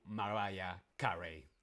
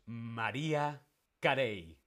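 First: "[name]" slowly as ma-RYE-a KA-ree; English pronunciation. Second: "[name]" as ma-REE-a ka-RAY; Spanish pronunciation. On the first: Teacher showing the form to avoid, English pronunciation. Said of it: "no [name]". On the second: Teacher revealing the correct answer, Spanish pronunciation. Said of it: "En España decimos". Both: Shown as a demonstration.

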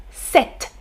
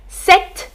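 First: Sept said set, without the P, softly; silent P. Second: Sept said set, the P silent. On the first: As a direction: say sept with no P sound. (sept sans prononcer le P) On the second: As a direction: say Sept with no P sound. (Sept prononcé « sèt ») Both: Shown as a demonstration. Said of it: "on ne prononce pas le P".

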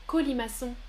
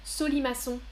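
First: Said in the usual way. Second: Solimaçon, starting with S instead of K; wrong S sound. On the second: Shown as a demonstration. (Solimaçon prononcé avec un S au début) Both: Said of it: "Je répète".

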